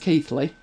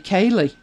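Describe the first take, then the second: First: The name has a 'th' sound in the middle. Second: The name has no 'th' sound in the middle. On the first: This is the way the speaker has heard it said. "But I've heard it as Keithley" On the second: Some people say it this way, based on the song. "some people, based on the song, may say Keely"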